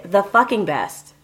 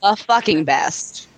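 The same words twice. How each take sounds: First: Excited without yelling. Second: Low, slow and bored; unenthusiastic. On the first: Shown as a demonstration. Host demonstrating an excited tagline without yelling. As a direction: sell "The fucking best" with belief but no shouting. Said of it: "I sounded excited, and I didn't have to yell". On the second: Acted. Cohost reading the tagline with no enthusiasm, flat and bored. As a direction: say it like you could not care less. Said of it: "Can you say that with a little more enthusiasm?".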